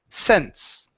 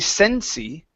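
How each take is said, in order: First: The word ends cleanly on the S sound. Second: An extra ee vowel follows the final S. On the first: The speaker calls it right. "it's just sense. And we end on that S" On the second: The speaker calls it wrong. "You're adding an E sound at the very end, like a Y"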